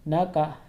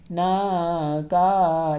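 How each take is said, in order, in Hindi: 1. अक्षर छोटे हैं, बिना खींचे और बिना झटके के। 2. अक्षर खींचे या झटके से कहे जाते हैं। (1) "ये सही तरीका है" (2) "ये गलत तरीका है"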